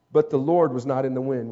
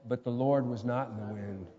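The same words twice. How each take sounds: First: Said in the usual way. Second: Much softer, low-pitched scripture line; quiet, low echo for the congregation; hushed repeat. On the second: Real, not acted. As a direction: let the verse sink almost to a murmur. Repeats verse after asking congregation.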